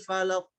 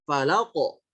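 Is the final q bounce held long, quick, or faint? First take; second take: faint; quick. First: The final q bounce is faint and unclear. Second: The final q bounce is short and quick. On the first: The speaker calls it wrong. "kurang kurang jelas pantulannya" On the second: The speaker calls it right. "pantulannya cepat"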